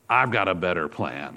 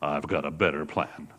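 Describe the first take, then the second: First: It is said in a normal voice. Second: It is said in a very deep voice.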